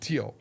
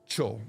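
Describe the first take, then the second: First: The ending is said with a 't' sound. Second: The ending is said with a 'sh' sound. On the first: The speaker calls it wrong. "but he kept saying teal" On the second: The speaker calls it right. "it ended with T, chill"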